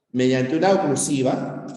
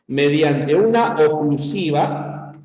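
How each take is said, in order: First: Said in the usual way. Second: Una stressed, drawn out slowly; slow emphasis on una. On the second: Shown as a demonstration. Teacher dictating to class, stressing una slowly.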